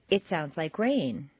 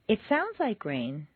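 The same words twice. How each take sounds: First: Plain statement, stating it is rain. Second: Doubtful opinion, implying it is not rain.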